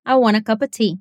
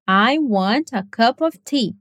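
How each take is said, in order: First: "I want a cup of tea" run together as one word, "wanna" and "cuppa"; relaxed native reduction; native connected speech. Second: "I want a cup of tea" slow, every word distinct, full "of"; slow, careful textbook English; clearly separated words. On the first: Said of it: "O que você vai ouvir na realidade é". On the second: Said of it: "falar assim claramente". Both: Shown as a demonstration.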